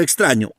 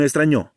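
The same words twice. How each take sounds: First: Said in the usual way. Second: Extraño stressed on the final o, as extrañó; extraño said with end stress, ex-tra-ÑÓ; stress on last syllable. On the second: Shown as a demonstration. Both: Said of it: "dependiendo de la posición de la tilde".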